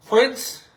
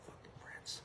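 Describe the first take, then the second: First: A sudden loud, higher burst on the name; loud exclaim. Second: Breathless whisper with no voice behind it; whispered aside. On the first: Listing past halftime stars to mock him, loud and high. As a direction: call the name out loud in disbelief. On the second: Stressing how absurd his claim is, in a voiceless whisper. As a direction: drop to a hushed whisper in disbelief. Listing halftime performers in disbelief. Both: Real, not acted.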